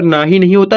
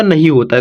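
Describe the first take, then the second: First: ना ही with a long first aa; wrong long vowel. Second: नहीं with a short first a; correct short vowel. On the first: Teacher showing pupils the wrong reading, long-vowel ना ही. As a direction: say ना ही as "naahi", first vowel stretched. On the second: Teacher giving pupils the right reading, short-vowel नहीं. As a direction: say नहीं as "nahin", quick first syllable. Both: Shown as a demonstration.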